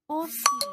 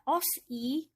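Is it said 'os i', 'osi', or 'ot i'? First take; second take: osi; os i. First: The s links smoothly into the i. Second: An s sound ends, then a separate i. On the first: The speaker calls it right. "bacanya osi" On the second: The speaker calls it wrong. "jadi bukan dibaca os i, bukan, salah ya"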